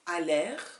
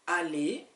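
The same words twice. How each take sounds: First: The final R is pronounced at the end. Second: The final R is silent, ending in an E sound. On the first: The speaker calls it wrong. "is not" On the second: The speaker calls it right. "You don't you don't hear an R at all"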